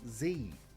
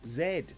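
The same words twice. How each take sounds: First: The letter is pronounced 'zee'. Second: The letter is pronounced 'zed'. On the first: This is how Americans say it. "over there, for some reason, it's Z" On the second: This is how most English-speaking countries say it. "pretty much every country that has English as its main language says Z"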